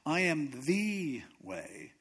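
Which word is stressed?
the. The stress falls on the word the. Everything else is not the way. "That means everything else is not the way"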